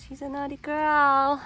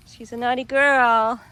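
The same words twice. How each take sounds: First: Playful scolding, higher. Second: Playful scolding. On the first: Scolding the dog again. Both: Real, not acted.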